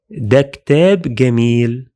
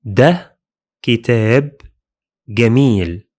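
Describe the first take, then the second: First: ده كتاب جميل spoken fast in one smooth run; the whole phrase said at normal conversational speed; natural flowing speed. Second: ده, كتاب, جميل spoken slowly with pauses between them; teacher spacing out each word of ده كتاب جميل. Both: Shown as a demonstration. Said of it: "would be like this".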